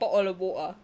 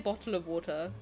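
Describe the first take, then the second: First: The phrase is said quickly and run together. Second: The phrase is said slowly and more fully. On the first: "if I say it quickly, it would come out like" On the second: "I say bottle of water because I'm from the south"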